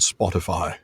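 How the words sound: It is said in a British-sounding accent. "So is that a British accent you just did?"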